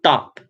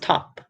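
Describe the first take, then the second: First: The t is said without a puff of air. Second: The t is said with a puff of air. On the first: The speaker calls it wrong. "It's not top" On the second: The speaker calls it right. "Aspiration is a little puff of air that we tend to use, for example, in the word top"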